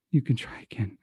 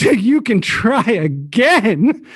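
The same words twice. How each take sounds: First: Whispered, low and weak; barely audible. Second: Higher, drawn-out gleeful taunt; mocking, bursting with laughter. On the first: Acted. Francois turned from the group, barely audible whisper. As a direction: say it so they barely hear. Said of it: "You can barely hear Francois say". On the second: Francois mocks the guild leader, rolling in laughter. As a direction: crow it slowly, about to crack up. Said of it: "rolling in laughter".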